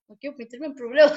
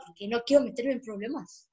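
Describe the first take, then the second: First: Giggling repeat of the line; half laughing, half whining; laughing through it. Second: Said in the usual way. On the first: Real, not acted. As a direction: say it again while cracking up.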